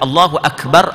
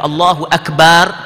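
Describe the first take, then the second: First: The last vowel of Akbar is short. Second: The last vowel of Akbar is drawn out long. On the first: God is the greatest. The speaker calls it right. "Allah Maha Agung" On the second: God is a drum. The speaker calls it wrong. "kita pergi panjang bar"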